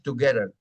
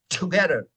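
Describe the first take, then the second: First: The T is soft, with no puff of air. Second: The T is explosive, with a strong puff of air. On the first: The speaker calls it wrong. "no es together" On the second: The speaker calls it right. "es together ... Es explosivo"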